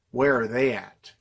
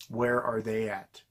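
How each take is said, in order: First: Said in the usual way. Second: Softer and slower, letting it sink; quiet slow repeat. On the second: Acted. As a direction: drop the voice on the repeat. Rhetorical question repeated, dropped down.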